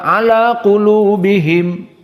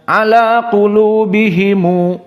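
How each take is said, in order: First: The phrase ends on the consonant 'm'. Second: The phrase ends with an added 'u' vowel.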